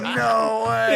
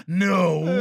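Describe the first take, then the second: First: Louder mock yell of disbelief; mock shout. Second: Said in the usual way. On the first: Friend spots the girl from the story, mock disbelieving shout. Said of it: "He goes". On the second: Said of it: "and he goes".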